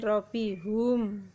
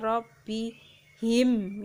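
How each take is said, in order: First: The last syllable has the vowel u. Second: The last syllable has the vowel i. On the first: The speaker calls it wrong. "kenapa bukan robbihum" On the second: The speaker calls it right. "kenapa dibaca robbihim"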